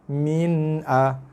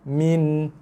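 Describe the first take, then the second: First: An extra a vowel follows the n sound. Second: The word ends cleanly on the n sound. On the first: The speaker calls it wrong. "tak boleh min a, ha, itu dah salah" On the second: The speaker calls it right. "tanpa dengung"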